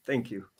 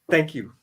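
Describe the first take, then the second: First: Near-silent thank you. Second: Said in the usual way. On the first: Real, not acted. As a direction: thank you dropped to a hushed, choked murmur. Thanking old friend, choked up.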